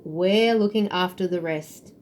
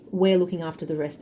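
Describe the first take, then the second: First: "we're looking after the rest" slowed right down, leaning on WE'RE; slow, firm promise on "we're looking after the rest"; emphatic reassurance. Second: Said in the usual way. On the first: Real, not acted. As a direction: say "we're looking after the rest" slowly and deliberately, first word stretched. Channelled message repeated for emphasis.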